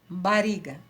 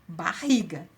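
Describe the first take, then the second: First: The middle R is pronounced as a weak sound. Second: The middle R is pronounced as a strong sound. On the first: "Se tivesse um R só" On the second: "então o som dele é forte"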